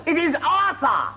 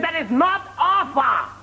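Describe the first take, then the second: First: High, slow "Arthur" with a clear TH; over-corrected TH. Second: High, slow "Arthur" mimicked as Arfur. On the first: Acted. Interviewer scolding applicant, "Arthur" with exaggerated TH. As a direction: spell out the TH in "Arthur", pitched high. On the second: Interviewer scolding applicant, mocking "Arthur" as Arfur. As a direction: correct him at high pitch, "Arthur" with an F.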